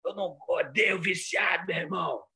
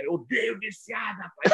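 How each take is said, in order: First: Shouting like a fiery televangelist; preacher shout. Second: Imitating a preacher's furious cry; preacher shout. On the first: Retold or imitated. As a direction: ham up a TV bishop yelling at sinners. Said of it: "Aí ele fazia assim". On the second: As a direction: yell it like the bishop-cop scolding addicts. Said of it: "Não gosto de viciado".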